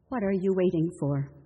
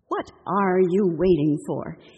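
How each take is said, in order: First: It is asked in a mild, curious tone. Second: It is asked in a very exasperated tone. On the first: The speaker simply wants to know. "mere curiosity" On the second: The listener's delay has badly frustrated the speaker. "extreme exasperation"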